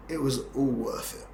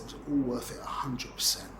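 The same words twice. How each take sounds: First: Said in the usual way. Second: Hushed, breathy-free whisper of the same line; whispered repeat. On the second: Retold or imitated. Repeating his answer to the puzzled table in a whisper. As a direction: drop to a whisper as if sharing a secret.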